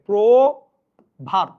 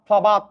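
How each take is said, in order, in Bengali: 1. প্রথম স্বরধ্বনিটি 'o'-এর মতো শোনায়। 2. প্রথম স্বরধ্বনিটি খোলা 'a'-এর মতো শোনায়। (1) "এটা ওকারান্ত হয়ে যাবে" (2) "আমি বিশ্রী করে উচ্চারণ করছি"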